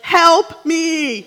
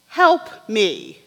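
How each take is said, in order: First: It is said urgently. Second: It is said calmly.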